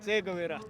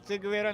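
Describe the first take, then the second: First: The first syllable has an 'e' vowel. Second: The first syllable has an 'i' vowel. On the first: The speaker calls it right. "नहीं चेगवेरा" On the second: The speaker calls it wrong. "चिगवेरा नहीं"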